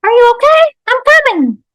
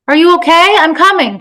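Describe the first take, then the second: First: Very high, loud squeaky mimic; Hello the toy. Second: Loud, high, worried shout; panicked call. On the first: Toy mimics the panicked mother, squeaky echo. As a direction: parrot the panic like a talking toy. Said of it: "said Hello". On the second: Acted. Woman calls to her fallen toddler, panicked. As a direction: call urgently to a hurt child. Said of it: "she called, panic making her sweat".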